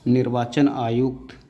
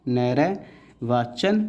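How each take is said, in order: First: Said in the usual way. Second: Slow sounded-out word. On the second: Shown as a demonstration. Teacher sounding out नैर्वाचन slowly for the class.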